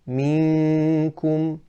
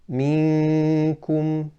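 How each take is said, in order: First: The noon sound comes mainly through the nose. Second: The same.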